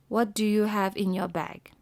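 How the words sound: It is said in a flat statement tone. It sounds like a statement rather than a question. The speaker calls it wrong. "you cannot say, ... As if it's like a sentence"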